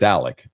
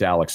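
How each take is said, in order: First: The name ends with a k sound. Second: The name ends with a ks sound. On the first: The speaker calls it right. "It's Alec. ... like with a C" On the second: The speaker calls it wrong. "it's Alex, not Alec. Actually, it's not"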